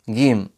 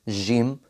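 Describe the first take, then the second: First: It begins with a hard g sound. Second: It begins with a soft j sound. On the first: "زي الجيم المصرية" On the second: "الجيم المتعطشة"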